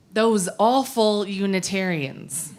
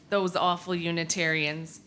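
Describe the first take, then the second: First: Said in the usual way. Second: Softer, with a chuckle in the voice; wry laugh. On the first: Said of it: "This story is called". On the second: Shown as a demonstration. Storyteller chuckling over the title to the congregation. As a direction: say the title again as an amused joke. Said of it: "Can you imagine?".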